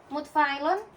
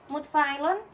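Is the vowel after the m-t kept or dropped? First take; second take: dropped; dropped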